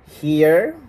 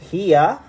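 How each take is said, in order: First: It is said with an American-style accent. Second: It is said with a British-style accent. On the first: This is not how the locals say it. "they don't say here" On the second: This is how the locals say it. "they prefer to say here"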